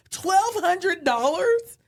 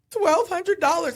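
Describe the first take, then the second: First: Higher, louder, very slow stunned question; mock shocked husband. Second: Higher, louder, slow guilty admission; sheepish confession. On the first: Wife imitating her husband hearing the loss, stunned. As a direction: stretch it out in disbelief. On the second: Retold or imitated. Wife owning up to her husband about the lost money, sheepish. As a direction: confess the number, bracing for it.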